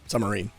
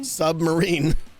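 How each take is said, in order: First: Said quickly, with the b sound left out. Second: Said carefully, with the b sound clearly heard.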